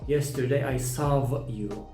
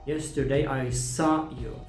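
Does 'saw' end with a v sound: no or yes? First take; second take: yes; no. First: The word saw ends with a v sound. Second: The word saw ends in a vowel. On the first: The speaker calls it wrong. "you do not need to say like that" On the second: The speaker calls it right. "Just omit the W sound"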